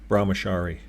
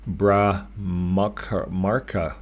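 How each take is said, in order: First: The middle has a clear 'ch' sound. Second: The middle sounds like 'mark', with no 'ch'. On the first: The speaker calls it right. "They call it Brahmachari" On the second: The speaker calls it wrong. "I said that wrong"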